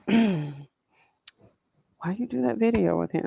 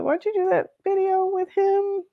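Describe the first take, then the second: First: It sounds hushed and knowing, like a quiet warning. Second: It sounds openly concerned, at normal volume. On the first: The asker is quietly warning to stay away. "maybe it's hush hush, like, girl" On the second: The asker is worried about the choice. "sounding like you have some concerns about why you would do that"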